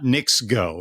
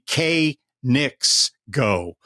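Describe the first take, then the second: First: The initial K is silent, like 'nicks'. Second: The initial K is sounded before the N. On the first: The name seems to refer to the New York Knicks. The speaker calls it wrong. "and not Knicks Go" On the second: The name refers to Korean Knicks. The speaker calls it right. "It was supposed to be K Knicks Go"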